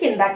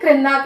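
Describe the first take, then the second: First: The word starts with k and no r. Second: The word starts with a k followed by r. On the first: This is the everyday spoken form of the word. "बोलचाल की भाषा में किंदा कह देते हैं मतलब जो रा की मात्रा उसको हटा के" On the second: This is the standard form of the word. "नीचे को तेलुगु में क्रिंदा कहते हैं"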